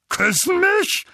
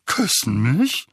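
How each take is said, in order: First: Very high, loud yelp of disbelief; Onkel Vernon, aghast. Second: Onkel Vernon, baffled. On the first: A narrator's reading. Uncle reacts to being kissed by Dementors, aghast. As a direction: shriek the question in outrage. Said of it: "mit leicht vorquellenden Augen". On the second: Acted. Uncle takes in the idea of kissing, baffled. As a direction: repeat it slowly, puzzling over each word.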